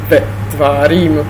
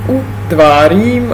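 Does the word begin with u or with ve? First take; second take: ve; u. First: The conjunction is pronounced as ve. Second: The conjunction is pronounced as a vowel u. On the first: This is the modern spoken form. The speaker calls it wrong. "a ne" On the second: This is the biblical Hebrew form. The speaker calls it right. "Toť biblická hebrejština"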